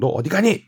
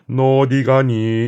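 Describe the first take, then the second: First: It is said in an angry mother's voice. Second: It is said flatly, without angry feeling.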